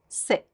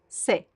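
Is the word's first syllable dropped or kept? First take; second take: dropped; dropped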